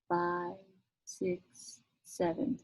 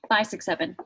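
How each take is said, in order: First: The counting is very slow, like a sloth. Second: The counting is quick.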